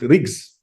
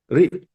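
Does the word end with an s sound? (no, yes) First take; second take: yes; no. First: The word ends with a final s sound. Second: The word ends without a final s sound. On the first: This is how Western Tibetans read it, closer to the old spelling. "pronounce it Rigs, like in Western Tibet" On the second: This is how some speakers read it, dropping final letters. "Some uh, speakers may pronounce this one Rik"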